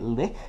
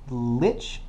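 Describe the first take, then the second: First: It is said closer to the German pronunciation. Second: It is said the common, accepted English way. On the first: "I was semi-correct in pronouncing it lich because um, it is from German word" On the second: "lich is apparently the accepted pronunciation"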